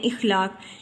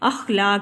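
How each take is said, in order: First: The word begins with an 'i' vowel. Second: The word begins with an 'a' vowel. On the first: The speaker calls it wrong. "अक्सर हम गलत बोल जाते हैं" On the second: The speaker calls it right. "सही तलफ़ुज़ है इसका अखलाक"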